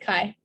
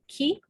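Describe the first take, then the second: First: It is said the way US mathematicians say it. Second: It is said the way people in Greece say it. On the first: "but we pronounce it chi" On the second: "it was supposed to be pronounced ki"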